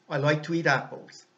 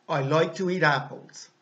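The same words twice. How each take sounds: The two takes are said the same way.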